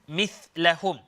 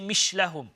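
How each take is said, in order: First: The middle consonant sounds like th. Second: The middle consonant sounds like sh. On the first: The speaker calls it right. "it's the letter tha" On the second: The speaker calls it wrong. "We don't say mishlahum"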